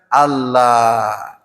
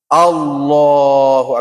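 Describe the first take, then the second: First: The l sound is thin and light. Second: The l sound is thick and heavy. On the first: The speaker calls it wrong. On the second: The speaker calls it right. "tapi tebal"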